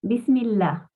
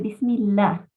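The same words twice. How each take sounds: First: The l in Allah is light and thin. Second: The l in Allah is light and thin.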